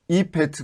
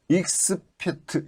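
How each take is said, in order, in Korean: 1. f 앞에 ks 소리가 없어요. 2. f 앞에 ks 소리가 있어요. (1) "그러면은 발음이 더 정확해지잖아요" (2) "이렇게 하면 좀 발음이 이상하죠"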